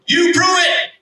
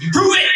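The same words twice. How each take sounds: First: High yell that falls hard on prove; repeated defiant challenge. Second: High rising retold yell, challenging; defiant challenge. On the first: Retold or imitated. Angry man repeating his dare to God, falling high yell. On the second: Angry man daring God to prove it, rising high challenge. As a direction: throw the dare upward, rising at the end.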